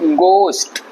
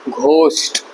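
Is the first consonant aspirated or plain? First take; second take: plain; aspirated. First: The first g is plain, as in go. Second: The first g is breathy and aspirated. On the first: The speaker calls it right. "जाना वाला गो जो होता है, वो वाला गो का इस्तेमाल यहाँ होगा" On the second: The speaker calls it wrong. "But ये घोस्ट नहीं है"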